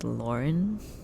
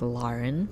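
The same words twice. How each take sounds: First: The first syllable sounds like 'lore'. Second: The first syllable sounds like 'lar'. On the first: This is the common American pronunciation. "a lot of people pronounce it as Lauren, and I think that's how it's typically said" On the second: This is how the family says it. "So instead of the lore part, it's Lar"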